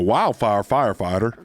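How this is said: It is said in a put-on country accent. "Maybe if you said it with a country accent"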